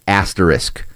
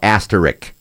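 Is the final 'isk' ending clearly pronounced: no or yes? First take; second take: yes; no. First: The word ends with a clear 'isk' sound. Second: The word ends without a clear 'isk' sound. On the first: The speaker calls it right. "it's supposed to be pronounced asterisk" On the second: The speaker calls it wrong. "most people don't get that isk in there"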